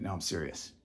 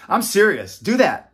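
First: Very soft, low insistence; quietly serious. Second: Higher, louder insistence; emphatically serious. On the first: Taking back the joke to parents, quietly serious. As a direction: drop right down, low and quiet. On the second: Urging viewers to help their children, emphatically serious. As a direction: push it out firmly, raised voice. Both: Real, not acted.

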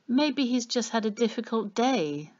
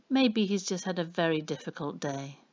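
First: Higher-pitched woman's line in narration; Annie's voice. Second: Lightly voiced husband agreeing, at the narrator's own pitch; Ernie's voice. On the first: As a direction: lightly voice Annie, pitched up, making excuses for him. Annie excuses the man to Ernie. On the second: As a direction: echo her excuse in agreement, understated. Ernie agrees, echoing Annie's words. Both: A narrator's reading.

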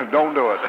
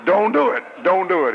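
First: Laughing plea. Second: Pleading. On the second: Preacher pleading with heartbroken girls. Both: Pretend.

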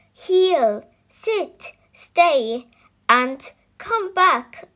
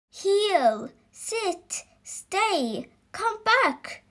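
First: Higher and louder commands; louder shouted commands. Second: Higher-pitched commands called out; shouted commands. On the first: Dog owners ordering their dogs again, louder shouted commands. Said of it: "The dogs people all shouted". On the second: Dog owners ordering their dogs, first shouted commands. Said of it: "shouted the dog's people". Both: Acted.

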